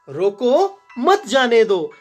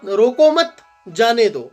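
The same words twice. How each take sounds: First: The pause comes after 'roko'. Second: The pause comes after 'mat'.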